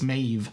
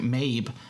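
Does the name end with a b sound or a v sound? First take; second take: v sound; b sound. First: The name ends with a v sound. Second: The name ends with a b sound. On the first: The speaker calls it right. "apparently it's Maeve" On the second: The speaker calls it wrong. "I was pronouncing it Maeve"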